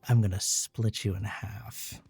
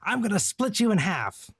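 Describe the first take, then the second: First: It is said in a low, growly voice. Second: It is said in an ordinary speaking voice. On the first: It means something suggestive. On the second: It is a literal battle threat.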